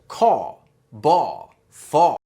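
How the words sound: The final R is dropped, New York style.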